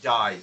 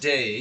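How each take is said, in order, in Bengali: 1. স্বরধ্বনিটি প্রশস্ত, তাই day শোনায় die-এর মতো। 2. স্বরধ্বনিটি সংকীর্ণ, তাই day শোনায় day-এর মতোই। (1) "অস্ট্রেলিয়ানরা ভাওয়েল গুলো একটু আরো বড় করে উচ্চারণ করে" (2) "ব্রিটিশ অ্যাকসেন্টে যেভাবে প্রনাউন্স হয়"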